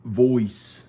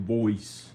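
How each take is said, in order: First: Louder country-accent "Voice". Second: "Voice" in a second country twang; another kind of country accent. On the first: Vlogger showing how country people talk, country accent. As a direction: say "Voice" with a loud country twang. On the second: Vlogger demonstrating another country accent, country accent. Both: Shown as a demonstration. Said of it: "There's another kind of country accent".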